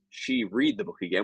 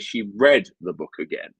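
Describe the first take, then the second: First: Read is said like its present-tense form. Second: Read is said like its past-tense form. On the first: The speaker calls it wrong. "which would be incorrect" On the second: The speaker calls it right. "in the past"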